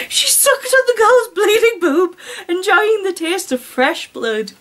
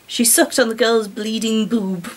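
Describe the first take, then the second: First: Higher, giggling reread; laughing through it. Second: Said in the usual way. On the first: Shown as a demonstration. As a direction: read it again, barely holding the laugh in.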